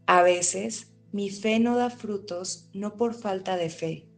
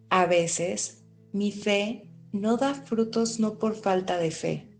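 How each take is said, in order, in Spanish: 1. La frase se dice a ritmo normal. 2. La frase se dice más despacio.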